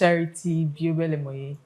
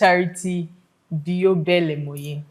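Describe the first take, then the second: First: The name is said quickly. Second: The name is said slowly. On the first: "don't rush it" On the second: "Slow down"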